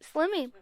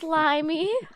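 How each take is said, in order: First: The first vowel is short, as in slim. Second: The first vowel is long, as in slime. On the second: "I really wanted to say Slimmy"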